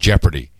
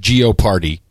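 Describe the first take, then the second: First: The word begins with 'jep' and ends 'ardy'. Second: The word begins with 'geo' and ends 'party'. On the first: This is how the show's name is actually said. The speaker calls it right. "it is actually pronounced Jeopardy" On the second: This is how many Europeans say it. The speaker calls it wrong. "most Europeans pronounce it as Geoparty"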